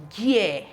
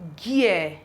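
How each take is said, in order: First: The word begins with a hard g sound. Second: The word begins with a hard g sound.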